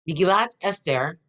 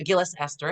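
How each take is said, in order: First: The first word ends with a t sound. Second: The first word ends with an s sound.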